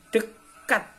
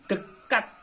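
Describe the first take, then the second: Both takes have the same delivery.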